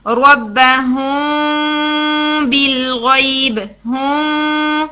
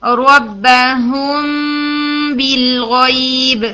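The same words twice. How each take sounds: First: ربہم بالغیب with a paper-thin gap in the lips so the meem drifts toward noon; very slow, lips barely parted on the meem of ربہم; paper-gap ikhfa. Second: ربہم بالغیب with lips joined and the hum kept on the lips; very slow, clear meem ikhfa before بالغیب. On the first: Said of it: "اگر میں اس کو paper gap سے بولتی ہوں". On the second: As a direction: keep the meem's hum on closed lips, not in the nose. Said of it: "lips کو join کرتے ہیں مگر ساؤنڈ کو لپس پر رکھتے ہیں". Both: Shown as a demonstration.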